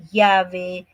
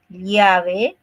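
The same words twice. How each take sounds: First: "llave" with "ll" said like a "y"; Lima ll. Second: "llave" with a clear "ll" as in lya; provincial ll. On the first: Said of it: "Aquí como que es, todo es". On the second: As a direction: mark "llave" with the "ll" sound of the provinces. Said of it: "Ahí sí está la diferencia". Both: Shown as a demonstration.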